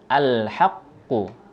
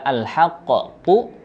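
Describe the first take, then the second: First: The q sound flows on with no echo. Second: The q sound ends with a bouncing echo. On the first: The speaker calls it right. "tetapi langsung al-haqqu" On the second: The speaker calls it wrong. "Tidak al-haqqu"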